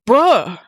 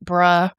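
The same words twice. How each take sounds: First: It sounds surprised. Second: It sounds agreeing.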